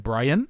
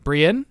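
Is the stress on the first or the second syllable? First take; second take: second; second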